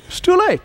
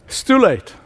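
First: It's too late pitched up high in anguish; anguished high-pitched lament; despairing cry. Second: Said in the usual way. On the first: Retold or imitated.

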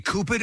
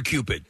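First: Cupid said "KOO-pid"; alternative pronunciation. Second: Said in the usual way. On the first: Shown as a demonstration. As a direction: drop the y-glide in Cupid, "koo". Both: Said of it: "Do you say Cupid or Cupid".

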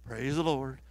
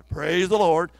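First: Said in the usual way. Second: Much louder call to praise; urging her to praise, much louder. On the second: Retold or imitated. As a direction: push it out louder. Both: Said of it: "I said louder".

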